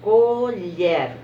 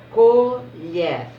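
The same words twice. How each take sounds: First: Colher repeated with the R sounded; Colher said with the final R clear; syllable demo. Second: Colher said louder, er joined; teacher models colher; syllable demo. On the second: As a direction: say colher clearly. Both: Shown as a demonstration. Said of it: "Colher fica junto".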